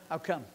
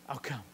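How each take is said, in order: First: Calm promise. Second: Much softer, low and gentle; soft reassurance. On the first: Jesus answers quietly. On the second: Jesus softly assuring the father, I'll come. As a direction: quietly promise you are on your way. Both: Acted.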